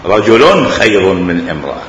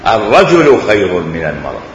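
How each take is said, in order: First: رجل said as rajulun, with a clear un ending; رجلٌ with a firm -un; nunation demo. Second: الرجل said with the article and no ending; الرجل voiced without tanwin; article demo. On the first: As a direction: make the tanwin on رجل heard as rajulun. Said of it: "أو في آخره تنوين". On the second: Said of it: "إما في أوله الرجل". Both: Shown as a demonstration.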